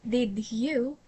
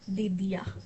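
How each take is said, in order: First: Both words are pronounced fully and clearly. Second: The second word is reduced to a short ya. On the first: The speaker calls it right. "properly saying did you" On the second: The speaker calls it wrong. "instead of did ya"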